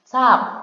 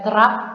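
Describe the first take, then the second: First: It starts with a single S sound. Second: It starts with a T and R cluster. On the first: The speaker calls it right. "tapi dibaca sap" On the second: The speaker calls it wrong. "Dia tidak dibaca terap"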